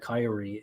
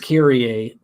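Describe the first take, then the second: First: The name is said an English way. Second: The name is said the Greek way. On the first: This is how most readers say the name. "most readers call it Kyrie" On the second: This is the original form of the name. "It's Greek. It's Kyrie"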